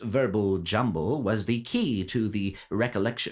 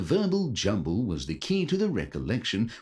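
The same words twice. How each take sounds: First: It is read in his ordinary reading voice. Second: It is read in an imitated game narrator voice.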